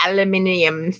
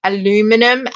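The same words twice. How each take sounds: First: "aluminium" said the British way, five syllables; corrected pronunciation. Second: "Aluminum" said the American way, four syllables; wrong pronunciation. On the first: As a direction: say "aluminium" as al-yoo-MIN-ee-um. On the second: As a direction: say "Aluminum" like an American, al-LOO-mi-num. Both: Shown as a demonstration. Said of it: "I can't say the word".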